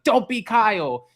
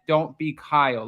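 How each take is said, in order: First: It is said aggressively, as an attack. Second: It is said calmly and casually.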